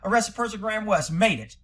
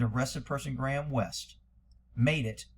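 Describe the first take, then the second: First: The phrase is read quickly. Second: The phrase is read slowly. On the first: "you're just reading it fast" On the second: "I'm gonna do it slow"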